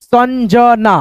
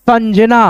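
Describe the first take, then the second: First: Sanjana split as सन, ज, ना; drawn-out teaching version of Sanjana; syllable-by-syllable reading. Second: Said in the usual way. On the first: Shown as a demonstration. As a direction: sound out Sanjana piece by piece. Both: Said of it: "इस बिंदी को हम लोग न पढ़ते हैं".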